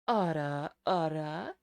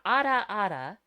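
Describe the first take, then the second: First: It is said breathy with a deeper tone. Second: It is said in a plain, ordinary voice. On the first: "you add the deeper tone in the as the third element" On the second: "So you got ada ada"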